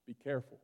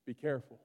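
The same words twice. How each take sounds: The two takes are said the same way.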